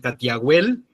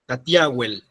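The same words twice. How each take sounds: First: The stress falls on the final syllable. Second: The stress falls before the final syllable. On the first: "como palabra aguda" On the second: "vamos a tener una que es la más usada"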